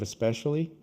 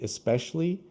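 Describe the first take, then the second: First: Every syllable is pronounced in full. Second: One syllable is cut, making it shorter. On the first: "instead of especially" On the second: "people sometimes cut one of the the syllables"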